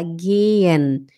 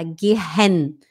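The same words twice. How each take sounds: First: "gehen" as geh-en, long e, no h; smooth, lengthened "gehen" without any h; silent h. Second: "gehen" as ge-HEN with audible h; "gehen" broken by a spoken h; wrong sounded h. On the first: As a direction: draw out the e of "gehen". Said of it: "a gente fala gehen". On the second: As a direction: breathe an h in the middle of "gehen". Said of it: "A gente não fala gehen". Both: Shown as a demonstration.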